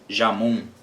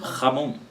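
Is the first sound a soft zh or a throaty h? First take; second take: soft zh; throaty h. First: It begins with a soft zh sound. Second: It begins with a throaty h sound. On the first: The speaker calls it wrong. "você não diz Jamon" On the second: The speaker calls it right. "Você diz Ramon"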